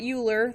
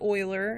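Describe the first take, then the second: First: The name begins with a 'yoo' sound. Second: The name begins with an 'oy' sound. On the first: The speaker calls it wrong. "That's how you mispronounce it" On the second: The speaker calls it right. "His name is Euler"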